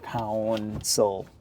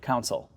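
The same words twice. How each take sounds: First: It is said carefully with a full vowel. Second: It is said quickly with a reduced vowel. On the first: "the U is in there" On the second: "that's how I say it really quick, naturally"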